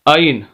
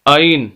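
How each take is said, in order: The two takes are said the same way.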